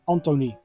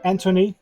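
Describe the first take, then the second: First: The name is said with a Dutch pronunciation. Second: The name is said with an English pronunciation. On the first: The speaker calls it right. "So his first name is pronounced as Anthony" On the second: The speaker calls it wrong. "In English, I think you would say Anthony"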